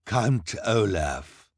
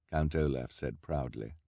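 First: Very slow, louder proud villain; villain announcing himself with pride; said proudly. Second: Said in the usual way. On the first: A narrator's reading. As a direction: savor your own name.

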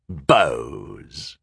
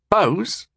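First: Low, falling, scornful echo; dismissive sneer. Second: High-pitched puzzled query; quick, puzzled echo of a word; confused question. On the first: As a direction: sneer the word, pitched down. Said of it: "he sneered dismissively". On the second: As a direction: ask it higher, baffled. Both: A narrator's reading.

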